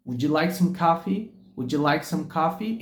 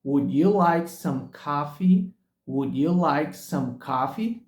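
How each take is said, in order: First: "Would you" said as "wouldja"; would ya blended. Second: "Would you like some coffee" word by word, very slow; slow and separated. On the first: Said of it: "eles unem o som de would com you". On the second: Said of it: "de forma tão pausada, tão clara, tão separada". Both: Shown as a demonstration.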